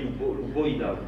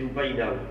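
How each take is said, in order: First: The stressed vowel is pronounced as a rounded 'o'. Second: The stressed vowel is pronounced as an open 'a'. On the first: It mocks how those people pronounce their A. "quand on se fout de leur gueule, on dit Loupoïna. Parce qu'ils prononcent O, les A" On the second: This is the plain local name. "c'est l'Oupaïna"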